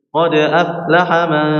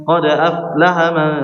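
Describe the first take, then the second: No difference in how they are said.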